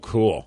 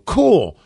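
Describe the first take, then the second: First: It is said flatly, without any interest. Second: It is said with excited, lively interest. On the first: The listener does not care about the story. "if they tell you a story that you're just not feeling like" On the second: The listener is genuinely interested in the story. "you can legit sound excited about it and go"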